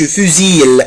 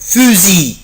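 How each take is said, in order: First: The word ends with an audible L sound. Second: The word ends without any L sound. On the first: The speaker calls it wrong. "ما بقولش فوزيل" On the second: The speaker calls it right. "لا بقولها fusil"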